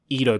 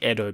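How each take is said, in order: First: Edo is said with an English-style pronunciation. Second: Edo is said with a Japanese-style pronunciation. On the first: The speaker calls it wrong. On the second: The speaker calls it right.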